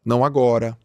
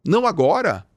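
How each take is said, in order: First: Said in the usual way. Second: "Não" set higher and hit hard, "agora" falling; the higher-pitched "Não" carries the point; stress on não. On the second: Shown as a demonstration. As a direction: hit the "Não" up high, then let "agora" drop. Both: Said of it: "outras formas também de você falar não".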